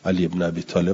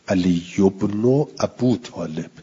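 First: The father's name is said as Abi. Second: The father's name is said as Abu. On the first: The speaker calls it wrong. "علی ابن ابی طالب غلطه" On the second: The speaker calls it right. "ننوشته ابی طالب"

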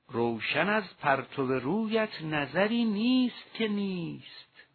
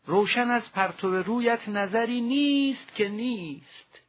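First: The final negative word is said lightly, without emphasis. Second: The final negative word is strongly stressed and emphasized. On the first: Every sight is lit by your face. The speaker calls it right. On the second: No sight at all is lit by your face. The speaker calls it wrong. "حتما با این لحن و تکیه و تأکید و اکسان نخوانیم"

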